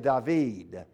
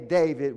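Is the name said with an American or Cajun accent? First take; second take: Cajun; American. First: It is said with a South Louisiana Cajun accent. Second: It is said with a general American accent.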